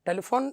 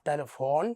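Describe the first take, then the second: First: The last vowel is short. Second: The last vowel is long. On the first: The speaker calls it wrong. "എന്നല്ല" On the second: The speaker calls it right. "ഇവിടെ നമ്മൾ നീട്ടി ഉപയോഗിക്കണം"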